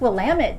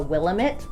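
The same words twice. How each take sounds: First: The stress is on the second syllable. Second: The stress is not on the second syllable. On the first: The speaker calls it right. "It's Willamette, damn it" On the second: The speaker calls it wrong. "you'll want to incorrectly call it the Willamette"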